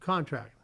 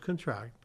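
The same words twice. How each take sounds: First: The stress is on the first syllable. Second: The stress is on the last syllable. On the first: It is a noun. "The former is a noun" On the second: It is a verb. "whereas the latter"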